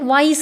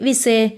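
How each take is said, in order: First: The vowel sounds like 'eye' with no final vowel. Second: The vowel sounds like 'ee' with a final vowel. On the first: The speaker calls it right. "പക്ഷേ ഇവിടെ വൈസ് എന്നാണ് വായിക്കുന്നത്" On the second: The speaker calls it wrong. "അങ്ങനെയല്ലേ നമ്മൾ sound വെച്ച് പഠിക്കുമ്പോൾ വായിക്കേണ്ടത്?"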